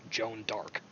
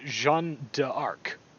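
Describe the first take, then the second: First: The name is said with an English accent. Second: The name is said with a French accent. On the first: "if you just say the French name with an English or American accent" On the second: "that's what it is in, in French"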